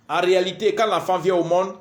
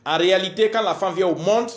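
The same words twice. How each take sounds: The two takes are said the same way.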